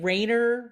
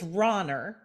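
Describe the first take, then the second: First: The first vowel is an ay sound. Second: The first vowel is an open ah sound. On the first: The speaker calls it wrong. "But I get" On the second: The speaker calls it right. "it's like rah rah"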